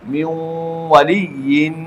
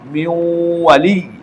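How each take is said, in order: First: The phrase ends with a '-yin' sound. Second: The phrase ends without the '-yin' sound. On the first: The reading continues without stopping. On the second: The reader stops at this word.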